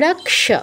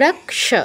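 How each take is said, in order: First: The cluster is sounded as k plus sh. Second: The same.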